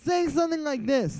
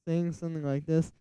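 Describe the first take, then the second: First: It is said loudly, with lots of energy. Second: It is said flatly, with little energy. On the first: The track sounds exciting. The speaker calls it right. "it's a lot more energy" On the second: The track sounds dull. The speaker calls it wrong. "in this kind of voice"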